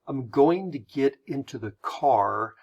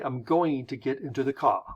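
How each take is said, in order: First: An American accent, with the final R pronounced. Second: A British accent, with the final R dropped. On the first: "You would say, ... we will pronounce our R's at the end" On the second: "They're going to say, ... they will not"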